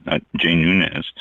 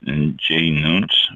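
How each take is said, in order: First: Nunes said as "noo-nez", slow; corrected name. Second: Nunes said as "noons", slowly; wrong name. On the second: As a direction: say Nunes as one syllable, "noons". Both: Shown as a demonstration.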